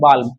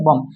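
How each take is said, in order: First: The L sound is clearly pronounced. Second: The L sound is silent. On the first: "अगर इसको सु सूत्र पढ़ेगा तो क्या पढ़ेंगे?" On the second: "एल को नहीं पढ़ेंगे तो क्या पढ़ देंगे?"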